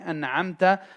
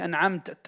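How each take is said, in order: First: The word ends in a vowel. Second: The word ends with an extra t sound. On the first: The speaker calls it right. "instead of saying an'amta" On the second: The speaker calls it wrong. "He'll say an extra ta with a ta"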